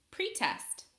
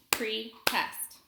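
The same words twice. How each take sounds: First: Said in the usual way. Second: "Pretest" in two separate beats, Pre, then test; split into syllables. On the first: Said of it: "Listen as I say a word". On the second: Shown as a demonstration. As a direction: clap out "Pretest" with a gap after Pre. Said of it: "I'll clap it out".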